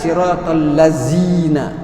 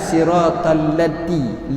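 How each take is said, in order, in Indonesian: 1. Konsonan tengahnya bunyi 'z'. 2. Konsonan tengahnya bunyi 'd'. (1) "Atau zai" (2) "kepada dal"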